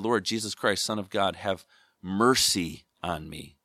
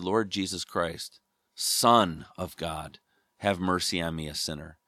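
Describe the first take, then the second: First: The stress is on mercy. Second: The stress is on Son.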